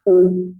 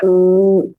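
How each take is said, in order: First: The vowel is cut short. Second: The vowel is held long. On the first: "dhammah itu adalah waw yang pendek" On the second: "ketika ada waw sukun sebelumnya dhammah, kita baca u"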